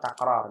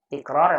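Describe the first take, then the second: First: The first vowel of the word is a. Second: The first vowel of the word is i. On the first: The speaker calls it right. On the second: The speaker calls it wrong.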